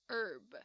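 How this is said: It is said with an American pronunciation. "如果你是学美式英文的话，那通常呢就都会是念"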